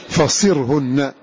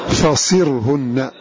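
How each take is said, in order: Both takes have the same delivery.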